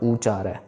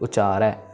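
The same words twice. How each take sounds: First: The first vowel is said full and long. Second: The first vowel is said short and light. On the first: The speaker calls it wrong. "Not उचारै" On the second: The speaker calls it right. "उचारै normal, मतलब ऊ की आवाज थोड़ी ही रहेगी"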